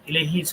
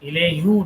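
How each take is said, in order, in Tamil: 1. இந்த வார்த்தை 'i' உயிரில் முடிகிறது. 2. இந்த வார்த்தை 'u' உயிரில் முடிகிறது. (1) "sounds better" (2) "does not better sound better"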